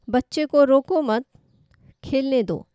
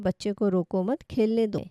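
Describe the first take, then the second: First: There is a pause right after 'mat'. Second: It is said without any pause inside.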